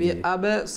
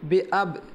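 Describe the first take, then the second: First: A vowel sound follows the final b. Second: The word ends on b with no vowel. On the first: The speaker calls it wrong. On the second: The speaker calls it right.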